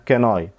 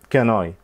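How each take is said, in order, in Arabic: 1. حرف "n" يتصل مباشرة بالكلمة التالية. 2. حرف "n" يتصل مباشرة بالكلمة التالية.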